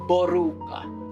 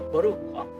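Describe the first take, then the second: First: It is said in a plain local accent. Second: It is said in a French-style accent.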